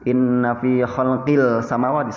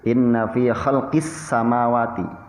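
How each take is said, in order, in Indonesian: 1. Bunyi L yang jelas terdengar sebelum S. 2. Bunyi L melebur menjadi S yang ganda. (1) "tidak boleh dibaca ... salah" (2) "dimasukkan ke huruf sin"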